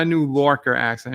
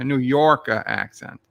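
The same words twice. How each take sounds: First: "Lorker" starting with an L sound; Lorker for Yorker. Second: "Yorker" starting with a Y sound; corrected to Yorker. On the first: Streamer quoting a chat typo, "Lorker" with an L. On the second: Streamer correcting the typo, "Yorker" with a Y. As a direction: say "Yorker" with Y, ending in an open uh. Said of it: "No, not a new Lorker accent". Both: Shown as a demonstration.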